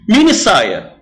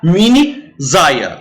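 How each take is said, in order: First: The S in saia sounds like s. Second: The S in saia sounds like z. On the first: The speaker calls it right. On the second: The speaker calls it wrong.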